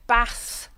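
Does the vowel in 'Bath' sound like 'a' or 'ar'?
a. The vowel sounds like a short 'a'. The speaker is from South Wales. "with an A sound in the middle"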